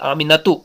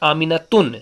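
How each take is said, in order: First: The name ends on a vowel sound. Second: The name ends with an n sound. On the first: The speaker calls it right. "It is Aminatu. तनवीन यहां से गायब हो गई।" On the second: The speaker calls it wrong. "not Aminatun"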